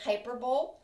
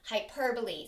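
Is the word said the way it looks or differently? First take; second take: as it looks; differently. First: The word is said the way it looks. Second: The word is said differently from how it looks. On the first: The speaker calls it wrong. "It looks like you would say it hyperbole, but that's not the correct pronunciation" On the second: The speaker calls it right. "The pronunciation is hyperbole"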